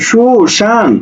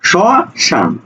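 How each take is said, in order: First: The first syllable has an 'u' vowel. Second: The first syllable has an 'o' vowel. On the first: The speaker calls it wrong. "আমি কিন্তু সুশান বলছি না" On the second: The speaker calls it right. "সুশান না, স শান"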